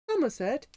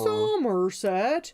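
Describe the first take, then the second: First: The R is said lightly and naturally. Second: The R is strongly exaggerated and drawn out. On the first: "instead of it saying them saying like Somerset" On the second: "they're like ... to pronounce the R, you really have to go out of your way"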